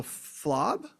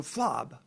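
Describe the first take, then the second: First: Flob? asked with a rising question tune; offering tune. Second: Flob. settled with a falling tune; accepting tune. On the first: Offering a cup to a friend, rising question. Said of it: "aware that I'm offering them this". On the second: Friend agrees to the new word, falling answer. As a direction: confirm Flob. with a firm fall. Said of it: "And they go". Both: Shown as a demonstration.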